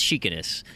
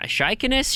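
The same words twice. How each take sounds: First: "Shikaness" opening with "she", lower and falling; second pronunciation attempt. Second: "Shikaness" opening with "shy", rising high like a question; first pronunciation attempt. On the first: Host settling on a reviewer's name, "Shikaness" said SHE-ka-ness with a falling tune. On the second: Host trying out a reviewer's name, "Shikaness" said SHY-ka-ness with questioning lift. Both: Shown as a demonstration. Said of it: "I'm gonna go with a Shi".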